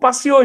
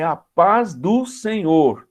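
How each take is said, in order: First: The words are rushed and run together. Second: Each word is said separately and clearly. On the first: The listener cannot understand the greeting. The speaker calls it wrong. "falava tão rápido" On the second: The greeting is understood. The speaker calls it right. "Não é passeou, é a paz do Senhor"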